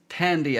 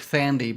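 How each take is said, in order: First: The name begins with a plain t sound. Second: The name begins with a th sound. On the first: The speaker calls it right. "but it was Tandy at the time" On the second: The speaker calls it wrong. "I thought it was Thandy because it's T H at the beginning"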